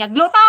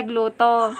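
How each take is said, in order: First: "gluto" punched loud with a rising end; Ilocano accent demo. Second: Said in the usual way. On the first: Shown as a demonstration. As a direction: Ilocano word "gluto" shouted upward. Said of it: "talaga ti Ilocano". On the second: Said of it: "naimas kami".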